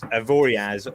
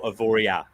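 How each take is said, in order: First: The word ends with an audible z sound. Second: The word ends on a vowel, no z. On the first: "is it pronounced Avoriaz or Avoria?" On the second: "officially, it should be A, Avoria"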